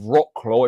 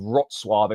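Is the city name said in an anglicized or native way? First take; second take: anglicized; native. First: The name is said in an anglicized way. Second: The name is said in the native way. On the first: The speaker calls it wrong. "I got battered on TikTok as well for my pronunciation of" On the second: The speaker calls it right. "It's actually Wrocław is how it's pronounced"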